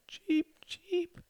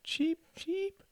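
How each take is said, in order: First: Very high, soft falsetto cheeping; cried bird cheep. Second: Tiny, soft falsetto echo of a squeak; echoed bird cheep. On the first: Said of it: "she cried". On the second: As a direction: echo the bird, very high and softer. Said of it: "echoed their mother". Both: A narrator's reading.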